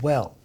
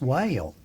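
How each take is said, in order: First: It is said with one short plain vowel. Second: It is drawled with a gliding three-vowel sound. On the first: "only has one vowel in it" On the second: "when a southerner says it, it ends up with three vowels in it"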